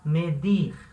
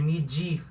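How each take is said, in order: First: The d is a hard, plain d. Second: The d is softened into a 'dj' sound. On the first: The speaker calls it right. "Vai se falar medir" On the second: The speaker calls it wrong. "ele não tem som do D do português, de medir"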